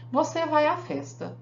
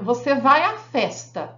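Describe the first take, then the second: First: It is said as a flat declarative statement. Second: It is said as a firm, commanding order. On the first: The speaker asserts that the listener is going. "É uma declaração. Eu afirmei" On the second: The speaker orders the listener to go. "uma ordem"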